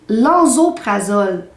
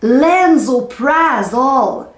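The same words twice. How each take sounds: First: The word is pronounced the French way. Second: The word is pronounced the English way. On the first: "on dit lansoprazole" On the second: "C'est quand c'est dit en anglais que c'est plutôt cocasse"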